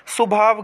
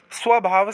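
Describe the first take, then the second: First: स्वभाव as "su-bhaav"; wrong merged cluster. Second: स्वभाव as "sva-bhaav"; correct sv cluster. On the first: Teacher showing students the mistake, cluster lost. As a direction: replace the sv of स्वभाव with su. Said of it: "गलत होता है". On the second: Teacher giving students the right form, cluster sounded. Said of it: "सही होता है". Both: Shown as a demonstration.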